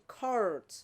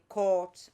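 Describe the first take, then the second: First: It is said in an American accent. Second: It is said in the local accent. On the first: "If in America you say court" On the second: "Here we say court"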